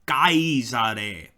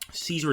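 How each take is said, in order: First: It is said like Kaiser with an added e. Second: It is said with an English-style pronunciation. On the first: The speaker calls it right. "the correct pronunciation in Latin would be Caesare" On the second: The speaker calls it wrong. "Caesar is more an English pronunciation"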